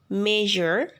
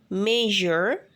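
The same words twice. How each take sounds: Both takes have the same delivery.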